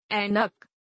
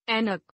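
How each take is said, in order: First: Said in the usual way. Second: ऐनक starting on narrow e, "enak"; mispronounced. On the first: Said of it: "शुद्ध". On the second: Shown as a demonstration. Teacher showing an e error, mispronounced with narrow e. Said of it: "अशुद्ध".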